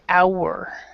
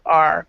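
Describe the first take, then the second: First: The word does not sound like the letter R. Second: The word sounds like the letter R. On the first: The speaker calls it right. "but you would say our" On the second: The speaker calls it wrong. "want to pronounce this one right here, kind of like R"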